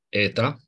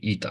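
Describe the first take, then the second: First: The name begins with an e vowel. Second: The name begins with an i vowel. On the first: This is the ancient Greek reading. "Eta, care este E, deci mergem pe pronunția... erasmică" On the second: This is the Byzantine and modern Greek reading. "greaca bizantină și greaca modernă, unde e ita aici"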